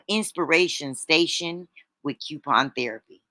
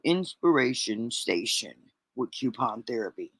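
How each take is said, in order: First: It is said in a sweeter, higher voice. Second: It is said in a deep, low voice. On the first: "I need to say that more sweeter" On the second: "maybe I shouldn't have said that in a deep voice"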